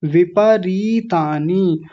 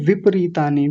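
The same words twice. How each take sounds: First: "विपरीतानी" slow, as vi-pa-ree-taa-ni; full vowel. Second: "विपरीतानी" run together as vip-ree-taa-ni; mistaken dropped vowel. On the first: Teacher correcting students, slow full-vowel "विपरीतानी". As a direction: give प its full a in "विपरीतानी", drawing out री. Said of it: "प को पूरा बोलना है". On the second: Teacher imitating students' error, clipped प in "विपरीतानी". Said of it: "ज्यादातर लोग क्या बोल रहे थे?". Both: Shown as a demonstration.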